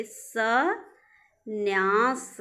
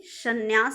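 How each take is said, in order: First: संन्यास split as सं, pause, न्यास; very slow syllables. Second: Said in the usual way. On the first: Shown as a demonstration. Teacher shows students the spelling, संन्यास in drawn-out parts. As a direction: stretch both halves of संन्यास. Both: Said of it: "संन्यास देखिए".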